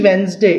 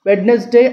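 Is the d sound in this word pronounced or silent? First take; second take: silent; pronounced. First: The d sound is left silent. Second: The d sound is pronounced clearly. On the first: The speaker calls it right. "it is వెన్స్డే ... డి silent letter" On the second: The speaker calls it wrong. "it's not వెడ్నెస్డే ... అని అనకూడదు"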